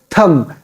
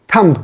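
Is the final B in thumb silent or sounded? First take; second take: silent; sounded. First: No B sound is heard at the end. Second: A B sound is heard at the end. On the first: The speaker calls it right. "B is silent here" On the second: The speaker calls it wrong. "It is incorrect way of pronouncing this word"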